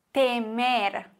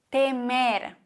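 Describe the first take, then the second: No difference in how they are said.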